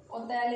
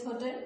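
First: "Hotel" said the French way, starting on O with a silent H; French pronunciation. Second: Said in the usual way. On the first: Shown as a demonstration. Teacher giving a French example word, "Hotel" in French without the H. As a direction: drop the H of "Hotel", French style. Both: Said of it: "Hotel is hotel".

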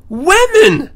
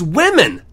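First: "women" repeated very high and loud; emphatic disbelief. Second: Said in the usual way. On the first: Real, not acted. Reading about mutilated victims, "women" high and emphatic. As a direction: punch "women" with a leap in pitch and volume.

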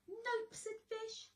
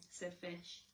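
First: High squeaky fish voice. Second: Said in the usual way. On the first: Acted. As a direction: stay in the little fish voice. Fish voiced, tag carried along.

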